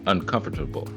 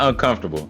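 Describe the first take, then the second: First: Every syllable is clearly sounded out. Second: Some syllables are slurred or dropped. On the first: The speaker calls it right. "You got to sound it out" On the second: The speaker calls it wrong. "Not uncomfortable"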